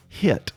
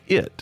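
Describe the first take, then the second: First: "hit" for "it", H sounded; H-initial hit. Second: Said in the usual way. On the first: Shown as a demonstration. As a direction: say "hit" with a breathy H in front, in place of "it". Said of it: "will say hit instead of it". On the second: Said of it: "say hit instead of it".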